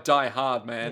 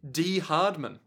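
First: The first word sounds like English 'die'. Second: The first word sounds like German 'dee'. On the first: The name reads as the English phrase 'die hard man'. "I'm going by Die Hard Man" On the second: The name is German for 'the hard man'. "German for the hard man"

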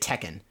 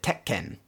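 First: The name is said the usual English way. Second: The name is said the Japanese way. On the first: This is the everyday way people here say it. The speaker calls it wrong. "we always say Tekken" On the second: This is how a speaker in the original video says it. The speaker calls it right. "he said Tekken"

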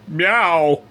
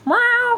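First: The meow sounds flat and bored. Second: The meow sounds lively and expressive. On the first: The performer does not care about the job. The speaker calls it wrong. "Just completely, I don't give a shit. Just give me my check" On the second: A real cat sound is expected. The speaker calls it right. "instead of hearing meow"

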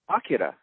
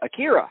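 First: The syllables are evenly weighted, no middle stress. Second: The middle syllable carries strong stress. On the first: The speaker calls it right. "Instead of saying Akira" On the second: The speaker calls it wrong. "they say Akira"

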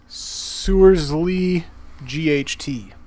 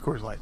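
First: The first word begins with an S sound. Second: The first word begins with a K sound. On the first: The speaker calls it wrong. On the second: The speaker calls it right.

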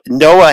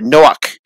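First: The name ends on an open vowel. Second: The name ends with a throaty ch sound.

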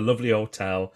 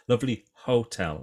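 First: The h at the start of hotel is dropped. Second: The h at the start of hotel is pronounced. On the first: The speaker calls it wrong. "I dropped my H there" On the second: The speaker calls it right. "let's say it properly"

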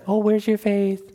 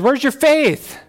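First: It is said in a soft, nice tone. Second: It is said in a stern tone.

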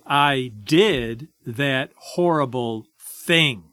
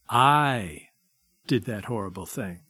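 First: The stress falls on the action word. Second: The stress falls on the word I. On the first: The fault lies in the behavior. "people with a guilt orientation will put the emphasis this way" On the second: The fault lies in the self. "A shame-prone person, however, will say it this way"

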